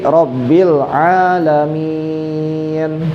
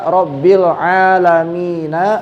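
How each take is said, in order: First: The phrase ends on the consonant 'n'. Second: The phrase ends with a final vowel 'na'. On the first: The reader stops at this word. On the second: The reading continues without stopping.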